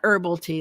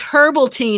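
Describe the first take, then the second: First: Herbal is said in the American way. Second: Herbal is said in a non-American way. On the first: The speaker calls it wrong. "not herbal tea ... Americans say it wrong" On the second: The speaker calls it right. "it was herbal tea"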